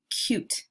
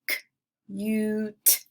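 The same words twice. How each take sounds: First: Said in the usual way. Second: "C-u-t" with a long, held yoo; roller-coaster word. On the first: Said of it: "some long vowel sounds". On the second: Shown as a demonstration. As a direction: separate c, stretch the yoo, finish on t. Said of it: "putting an emphasis on the middle".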